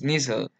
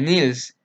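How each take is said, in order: First: The s comes before the final l sound. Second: The l comes before the final s sound. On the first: The speaker calls it right. "su pronunciación es Nissl" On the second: The speaker calls it wrong. "Mucha gente pronuncia sustancia de Nils y no es así"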